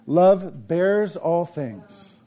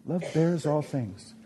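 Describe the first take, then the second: First: Each word drawn out slowly; slow emphatic preaching. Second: Soft repeat. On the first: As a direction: lean hard on every word, slow. Preaching repeated verse. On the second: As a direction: echo the line much softer. Repeating verse softer. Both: Acted.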